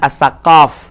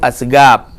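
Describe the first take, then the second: First: The middle consonant is a hard k-like sound. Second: The middle consonant is a g sound. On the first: This is how the name is written. "tulisannya As-Saqaf" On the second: This is how those people actually say it. "dibaca oleh orang itu As-Segab"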